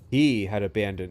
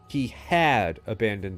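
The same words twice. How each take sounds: First: The stress is not on the word had. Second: The stress is on the word had. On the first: The speaker calls it wrong. "I'm placing the emphasis on the wrong thing" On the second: The speaker calls it right. "The italicized part is had"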